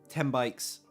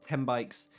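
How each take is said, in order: The two takes are said the same way.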